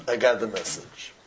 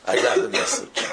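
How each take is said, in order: First: Said in the usual way. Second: Breathy whisper of I got the message. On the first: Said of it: "repeated plain". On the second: Shown as a demonstration. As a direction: hush it like a realization. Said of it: "repeated, first whispered".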